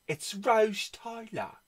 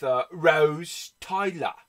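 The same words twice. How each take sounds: First: "Rose" said as "Rauz" in a put-on British accent; higher, slow British "Rose Tyler"; mock British "Rose". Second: Said in the usual way. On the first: Shown as a demonstration. Showing off the cover to viewers in a British accent. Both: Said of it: "you know it's Rose Tyler".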